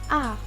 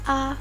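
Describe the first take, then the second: First: The pitch falls from high to low. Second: The syllable is short with no tone. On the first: "Nada empat adalah nada turun" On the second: "tidak memiliki nada"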